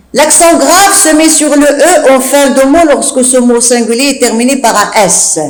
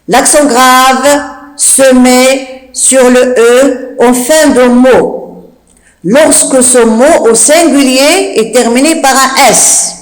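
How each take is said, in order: First: Said in the usual way. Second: Slow, phrase by phrase with pauses; measured chunks, words drawn out; slow dictation. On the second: Shown as a demonstration. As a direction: dictate it for pupils writing it down. Rule repeated slowly for dictation.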